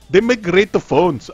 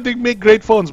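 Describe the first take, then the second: First: It is said in an imitated Indian accent. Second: It is said in the speaker's ordinary accent.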